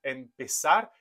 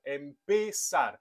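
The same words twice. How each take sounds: First: Said in the usual way. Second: "empezar." said slowly with a falling tune, every syllable clear; slow pronunciation model. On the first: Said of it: "C'est le cas par exemple du verbe empezar". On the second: Shown as a demonstration. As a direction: spell out "empezar." for learners, slowly. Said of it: "il y a un E dans l'avant-dernière syllabe".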